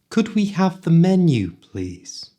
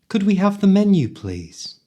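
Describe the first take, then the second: First: It is spoken slowly and carefully. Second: It is spoken quickly, at full speed.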